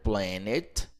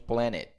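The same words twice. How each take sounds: First: The t sound is clearly pronounced. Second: The t sound is left out. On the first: "alguns americanos vão dizer planet" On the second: "Eles vão omitir esse T daqui"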